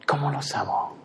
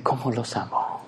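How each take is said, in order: First: Tender repeat. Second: Soft, tender sigh of a loving God; sighing tenderly. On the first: God repeating his love for anxious people, softly. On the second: God sighing over his fearful children, soft and tender. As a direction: breathe it out softly with love. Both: Acted. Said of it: "me imagino que suspira y dice".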